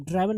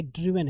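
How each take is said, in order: First: ड्राइवन said with a long "ai" like drive, shown as the mistake; wrong pronunciation. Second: ड्रिवन said with a short "i", as "driven"; corrected reading ड्रिवन, short "dri" then "ven"; correct pronunciation. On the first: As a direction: say ड्राइवन as "draiven", the way not to read it. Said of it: "ड्रिवन है ये". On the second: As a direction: give ड्रिवन the short "i" vowel, the right way. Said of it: "इसको आप ड्राइवन नहीं पढ़ेंगे". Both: Shown as a demonstration.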